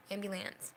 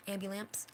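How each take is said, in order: First: AMBULANCE with a falling, final end; settled falling tune. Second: AMBULANCE with a rising, questioning end; questioning tune. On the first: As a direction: confirm AMBULANCE as a plain statement. Settles on the word after checking. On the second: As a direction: say AMBULANCE as if unsure it is right. Checks how she said the word. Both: Real, not acted.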